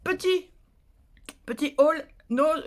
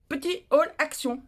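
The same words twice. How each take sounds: First: Slow "haul nose" said by mistake; drawn out "petit haul nose" with the wrong word. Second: Slow "Petit haul action" with action stressed; drawn out "haul action" as the correction; corrected word action. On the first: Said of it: "non, pas nose". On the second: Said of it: "c'est pas nose, c'est action". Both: Shown as a demonstration.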